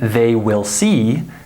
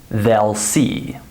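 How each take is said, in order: First: They and will are said as two full words. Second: They and will merge into one contracted word. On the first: "instead of saying they will see" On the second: "native speakers would say they'll see"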